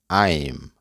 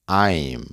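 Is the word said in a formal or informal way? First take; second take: formal; formal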